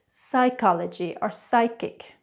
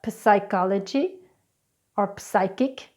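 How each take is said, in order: First: The P sound is silent. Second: The P sound is pronounced. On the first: The speaker calls it right. "it's psychology or psychic" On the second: The speaker calls it wrong. "It's not psychology or psychic"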